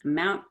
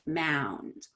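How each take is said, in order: First: AMOUNT quick, ending on T; short before T. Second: MOUND stretched, low and falling; long before D. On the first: Teacher repeats the contrast, AMOUNT said short. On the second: Teacher repeats the contrast, MOUND long and low. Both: Shown as a demonstration. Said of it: "it's the T and the D at the end".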